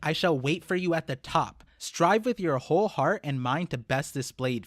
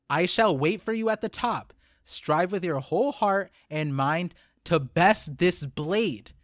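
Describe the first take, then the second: First: It is read quickly. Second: It is read slowly.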